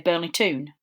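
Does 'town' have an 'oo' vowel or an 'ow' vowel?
oo. Town is said with an 'oo' vowel. This is how the local Newcastle area says it. "they say Burnley Toon"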